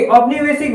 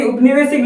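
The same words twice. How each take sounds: First: औपनिवेशिक opening on au; correct initial au. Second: उपनिवेशिक opening on a short u; wrong initial vowel. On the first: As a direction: begin औपनिवेशिक with "au", not short "u". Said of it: "बल्कि औपनिवेशिक word लिखा जाता है". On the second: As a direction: begin उपनिवेशिक with "u", not "au". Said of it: "न कि उपनिवेशिक लिखा जाता है". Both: Shown as a demonstration.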